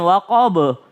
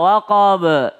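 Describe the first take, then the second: First: WAQAB ending in a rounded "bo"; wrong echo. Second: WAQAB ending in a short bounced "be"; correct echo. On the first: Teacher showing wrong waqab, rounded ending. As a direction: round the bounced B of WAQAB towards O. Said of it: "Jangan waqab". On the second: Teacher modelling waqab, light bouncing e. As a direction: bounce the B of WAQAB into a tiny schwa. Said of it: "kalau ini e". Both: Shown as a demonstration.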